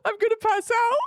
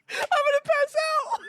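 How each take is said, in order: First: Excited exclaim. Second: Much higher, louder shout of "I'm gonna pass out"; laughing shout. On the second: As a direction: yell it, overwhelmed with laughter. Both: Real, not acted.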